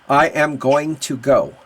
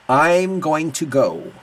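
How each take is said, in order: First: I am is said as two full words. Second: I am is contracted into one syllable. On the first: "the robot way, you know, the textbook way" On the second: "we could do a contraction"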